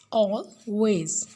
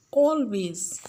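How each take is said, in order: First: "always" broken as al, pause, ways; split into syllables. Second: Said in the usual way. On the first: Shown as a demonstration. Teacher having pupils mark stressed syllable, "always" split apart. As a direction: say "always" in two separate beats. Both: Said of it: "Mark stressed syllable".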